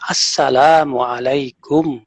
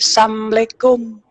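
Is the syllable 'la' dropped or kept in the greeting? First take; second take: kept; dropped. First: The 'la' syllable is kept, giving 'assalam'. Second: The 'la' syllable is dropped, giving 'assam'. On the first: It wishes peace on the listener. The speaker calls it right. "Ucapkan yang benar" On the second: It wishes death on the listener. The speaker calls it wrong. "Ini salah besar. Sam, sam itu artinya kematian"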